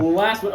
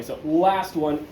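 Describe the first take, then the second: First: Last one punched high and loud; presenter announcing the final item, loud and bright; announced. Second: Last one stretched out slowly; presenter teasing the finale, slow and drawn out. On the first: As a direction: call out the final item with a push. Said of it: "So, now". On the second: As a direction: savour each word slowly. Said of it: "don't worry". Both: Shown as a demonstration.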